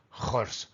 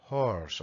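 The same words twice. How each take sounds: First: Horse with a throaty Spanish j at the start. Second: "Horse" begun with a soft breath, not the throat. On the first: Teacher showing the j error in horse. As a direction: scrape "horse" from the throat like jota. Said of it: "No decimos horse". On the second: Teacher giving the softer h after the j version. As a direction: breathe out the h lightly. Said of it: "La H es mucho más suave que la J". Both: Shown as a demonstration.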